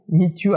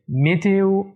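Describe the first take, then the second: First: A y glide joins the two vowels. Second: No glide comes between the vowels. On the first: The speaker calls it wrong. "alors on parle ici du son y" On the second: The speaker calls it right. "on doit prononcer comme ça"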